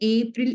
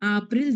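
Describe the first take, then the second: First: The word begins with an 'ay' vowel. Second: The word begins with an 'ah' vowel. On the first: This is the English pronunciation. "English" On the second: This is the German pronunciation. "German"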